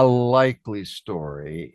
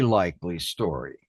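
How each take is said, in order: First: It is said with a sarcastic, doubting tone. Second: It is said with a sincere, earnest tone. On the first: The story is probably not true. "in that tone of voice, which means not really very likely" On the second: The story is probably close to the truth. "It's very likely something very much like that"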